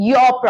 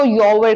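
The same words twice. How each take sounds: First: "your" in one syllable, yaw; correct pronunciation of "your". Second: "your" split as yo-wer; common mispronunciation of "your". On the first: Shown as a demonstration. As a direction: say "your" without any w inside, yor. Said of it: "इसको your मत बोलिए, ये होता है". ("your" को सीधा यॉ बोलें) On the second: Retold or imitated. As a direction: add a w sound inside "your", YO-wer. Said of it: "बहुत से लोग इसको your कर देते हैं". ("your" को यो-वर की तरह बोलें)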